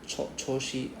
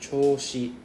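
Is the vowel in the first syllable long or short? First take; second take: short; long. First: The first vowel is short. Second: The first vowel is drawn out long. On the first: The speaker calls it wrong. "It's not like Qiu-Shi" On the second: The speaker calls it right. "so you have to drag the O sound"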